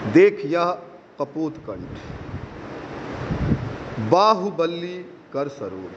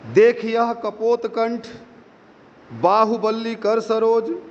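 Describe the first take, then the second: First: It is read plainly, like modern free verse. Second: It is read in a regular metrical rhythm.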